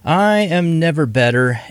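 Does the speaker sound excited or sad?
sad. The voice sounds flat, sad and unexcited. The speaker calls it wrong. "You didn't sound very excited there. That sounded sad"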